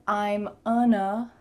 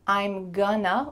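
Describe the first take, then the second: First: The g sound is dropped entirely. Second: The g sound is clearly pronounced. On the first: "with the G cut out" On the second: "with that clear G"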